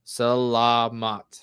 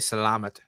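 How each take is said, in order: First: Each syllable is said clearly apart. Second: The syllables are run together, like salad. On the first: The speaker calls it right. "the words is like segregated in like two or three syllables" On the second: The speaker calls it wrong. "I was saying it wrong. I would say salamat, salamat, you know, salad, like salad"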